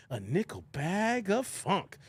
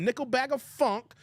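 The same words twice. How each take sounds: First: Slow, stretched-out song lyric; drawn-out lyric quote. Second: Said in the usual way. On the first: Retold or imitated. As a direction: draw out each word like a groovy hook. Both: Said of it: "Remember Digable Planets?".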